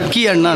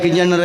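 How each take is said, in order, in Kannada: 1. ಈ ಹೆಸರನ್ನು ಎರಡು ಪ್ರತ್ಯೇಕ ಪದಗಳಾಗಿ ಹೇಳಲಾಗುತ್ತದೆ. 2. ಈ ಹೆಸರನ್ನು ಒಂದೇ ಜೋಡಿಸಿದ ಪದವಾಗಿ ಹೇಳಲಾಗುತ್ತದೆ. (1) "ಬೆಂಗಳೂರಿನವರಿಗೆಲ್ಲ ಕೈಯಾರ ಕೀ ಅಣ್ಣ ರೈ ಅಂತ ಹೇಳ್ತಾರೆ" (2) "ನಮ್ಮ ಕೈಯಾರ ಕಿಂಜಣ್ಣ ರೈಗಳ ಹೆಸರು"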